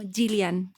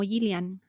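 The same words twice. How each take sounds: First: The first consonant is strong and hard. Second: The first consonant is soft and light. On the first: "no alcanza a ser como Gillian" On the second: "lo pronunciamos muy suave"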